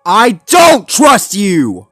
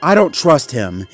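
First: Slow, high, emphatic yell; loud, high outburst of distrust; furious shout. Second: Firm, raised but controlled statement; higher, louder, matter-of-fact warning; firm distrust. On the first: A narrator's reading. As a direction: shout each word in defiance. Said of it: "baring his teeth". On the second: Acted. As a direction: state your distrust firmly, without shouting. Zuma states his distrust.

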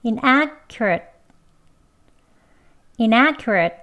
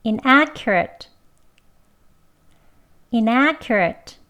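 First: Inaccurate ending with the tongue tip held, no burst; unreleased final t. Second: Inaccurate slowly with a clear k sound; k sound version. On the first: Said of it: "읒 하고 혀끝 붙입니다". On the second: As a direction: say inaccurate with a plain k. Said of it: "크 소리 나는 발음으로요". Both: Shown as a demonstration.

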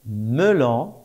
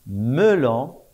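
No difference in how they are said.

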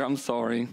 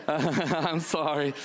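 First: Said in the usual way. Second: Slow apology broken by laughter; laughing apology. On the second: Real, not acted. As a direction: laugh through the apology to newcomers. Apologizing again while laughing.

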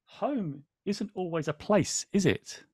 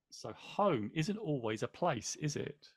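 First: Storybook line. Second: Much softer, trailing into a whisper; soft reflective repeat. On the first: A narrator's reading. Host reading the book to viewers, slow and wistful. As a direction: read slowly as a wistful question. Reads book quote aloud. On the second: Real, not acted. Host musing on the quote, softly to himself. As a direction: say it again to yourself, almost breathed. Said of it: "repeats the quote to reflect".

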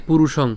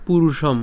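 First: "পুরুষং" ending in ng; "পুরুষং" finishing at the back of the mouth; correct ending NG. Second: "পুরুষম" ending in m; "পুরুষম" with m in place of ng; wrong ending M. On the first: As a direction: say "পুরুষং" with the anusvara as ng. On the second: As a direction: close the lips at the end of "পুরুষম". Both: Shown as a demonstration. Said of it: "not পুরুষম".

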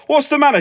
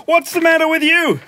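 First: Higher, put-upon question; irritated son. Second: High-pitched imitation of Mum; scolding mum. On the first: Retold or imitated. [name] answering his mum's shouting, irritated. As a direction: answer Mum with mild exasperation. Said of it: "And I go". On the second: Mum confronting [name] in his room, scolding. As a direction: mimic an accusing mother. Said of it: "She goes".

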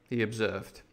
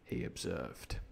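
First: Said in the usual way. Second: He observed, dropped soft and low; quiet narration. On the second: A narrator's reading. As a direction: throw the tag away under the breath. Narration dropped after quote.

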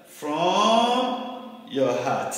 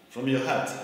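First: FROM stretched long on a rising pitch; very slow, lingering stress on "from"; drawn-out emphasis. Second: Said in the usual way. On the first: Real, not acted. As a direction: draw out "from" slowly, then land "your heart". Stressing the closing words of scripture.

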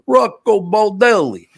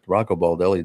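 First: Put-on loud, high, showy Italian accent. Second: Said in the usual way. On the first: Host imitating praise of Rocco Baldelli, big Italian accent. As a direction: belt the name in exaggerated Italian. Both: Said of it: "you got the accent".

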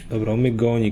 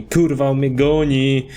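First: Said in the usual way. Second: Slow, stretched cry of alarm. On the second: Real, not acted. Player chased in a game, alarmed drawn-out cry.

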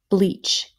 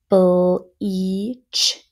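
First: Said in the usual way. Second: "Bleach" stretched sound by sound. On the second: Shown as a demonstration. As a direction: sound out Bleach slowly in separate parts. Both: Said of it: "Let's do our next row".

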